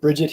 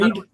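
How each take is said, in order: First: The name is said as two syllables. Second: The name is said as one syllable.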